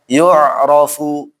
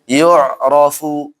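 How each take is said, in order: The two takes are said the same way.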